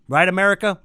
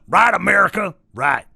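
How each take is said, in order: First: Raised, rhetorical appeal to a crowd; calling out. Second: High, loud, harsh rallying cry; shouted call. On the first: Ranter appeals to America, calling out. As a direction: call out to the country, higher pitched. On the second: Ranter demands America agree, shouted call. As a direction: shout it out to the whole country. Repeats the call with more force. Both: Pretend.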